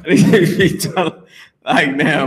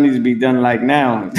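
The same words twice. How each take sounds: First: Slower, laughing through the words. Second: Said in the usual way. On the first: Real, not acted. Urging Yannick to hurry, laughing at himself. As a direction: repeat it while cracking up. Repeats own line, then laughing.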